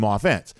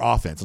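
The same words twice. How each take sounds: First: "offense" said with the stress on the wrong syllable. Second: "offense" re-said with its normal stress; corrected stress. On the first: Podcast host misplacing the stress in "offense". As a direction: slip the stress onto the other syllable of "offense". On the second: Host correcting his own stress on "offense". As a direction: fix the stress on "offense" as a quick self-correction. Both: Real, not acted. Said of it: "emphasis in the wrong syllable".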